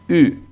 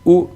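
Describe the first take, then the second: First: The vowel is a front rounded 'ü' sound. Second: The vowel is a plain back 'oo' sound. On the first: The speaker calls it right. "sino u" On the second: The speaker calls it wrong. "no es u"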